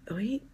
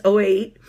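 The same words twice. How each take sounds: First: OH EIGHT very soft, rising like a question; questioning self-check. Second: Said in the usual way. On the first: Real, not acted. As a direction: check OH EIGHT under your breath, pitch lifting at the end. Checking the year to herself.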